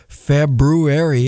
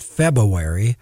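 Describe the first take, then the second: First: The middle has a clear brew sound with r. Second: The middle has no r sound after the b. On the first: The speaker calls it right. "there's a brew in the middle of the month" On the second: The speaker calls it wrong. "it's not February"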